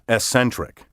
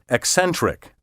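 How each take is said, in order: First: The double C is said as a single S. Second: The double C is said as K plus S. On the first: The speaker calls it wrong. "not eccentric" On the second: The speaker calls it right. "And eccentric"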